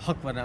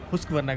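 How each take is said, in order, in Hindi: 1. पहला अक्षर huck है, s की ध्वनि के बिना। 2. पहला अक्षर hoosk है, oo स्वर के साथ। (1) "या हक वरना" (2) "उसको प्रोनाउंस भी हुस्क वरना करते हैं"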